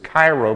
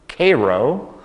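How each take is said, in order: First: It uses the common reading of the word. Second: It uses the local Illinois pronunciation. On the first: This is how outsiders would read the name. "We would look at it as Cairo, but in Illinois we don't pronounce it that way" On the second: This is how locals in Illinois say the name. "We pronounce that word Cairo"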